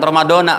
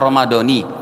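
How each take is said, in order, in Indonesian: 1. Kata ini diakhiri vokal 'a'. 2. Kata ini diakhiri vokal 'i'. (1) "jangan Ramadana"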